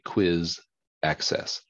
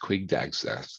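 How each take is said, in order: First: The phrase is said with each sound clear. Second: The phrase is said fast and slurred together. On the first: The speaker calls it right. "That's actually quiz access" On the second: The speaker calls it wrong. "It's hard to say that fast, quig access like that"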